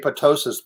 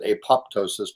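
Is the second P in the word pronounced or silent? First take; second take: silent; pronounced. First: The second P sound is silent. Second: The second P sound is pronounced. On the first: The speaker calls it right. "I think the second P is silent" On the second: The speaker calls it wrong. "Some people pronounce it apoptosis"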